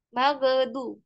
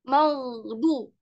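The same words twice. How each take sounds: First: The gh sound has an added bounce. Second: The gh sound is smooth without a bounce. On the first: The speaker calls it wrong. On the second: The speaker calls it right.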